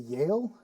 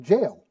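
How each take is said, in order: First: The word begins with a Y sound. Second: The word begins with a J sound. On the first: It is the usual English pronunciation. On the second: It imitates a Swedish speaker's pronunciation.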